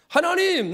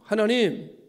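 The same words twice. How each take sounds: First: The word is shouted loudly. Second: The word is said somewhat louder. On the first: "크게 외치기 시작했어요" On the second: "목소리를 좀 크게 냈지요"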